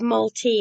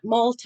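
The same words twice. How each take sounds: First: The word ends with an 'ee' vowel sound. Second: The word ends with an 'eye' vowel sound. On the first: "and they put T E E" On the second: "they spell T T I E, that because that's the way I was pronouncing it"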